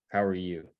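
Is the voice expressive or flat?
flat. It is said in a flat, monotone voice. The speaker calls it wrong. "you wouldn't ask them"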